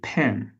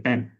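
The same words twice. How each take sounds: First: The p at the start is strong. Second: The p at the start is weak. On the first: The speaker calls it right. "it should be stronger. For example, you say pen" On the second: The speaker calls it wrong. "You don't say pen"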